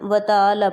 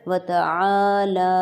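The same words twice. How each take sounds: First: The vowels are clipped short without the throat sound. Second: Both long vowels are drawn out evenly and fully. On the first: The speaker calls it wrong. "Common mistake ये होती है कि हम व तआला पढ़ते हैं" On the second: The speaker calls it right. "इन दोनों को हम बराबर खींचेंगे"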